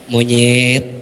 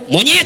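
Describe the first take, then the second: First: The word is said softly and gently. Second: The word is said harshly and sharply. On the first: Even a bad word sounds mild. "tapi lembut" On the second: The bad word sounds like an insult. "Tapi kalau monyet beda"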